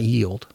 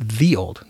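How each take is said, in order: First: The first word starts with a 'y' sound. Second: The first word starts with a 'th' sound. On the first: The speaker calls it wrong. "not ye old" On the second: The speaker calls it right. "It's the old"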